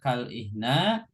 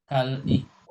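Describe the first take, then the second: First: The word ends with an a vowel. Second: The word ends with a u vowel. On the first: "nggak boleh dibaca" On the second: "nggak boleh juga"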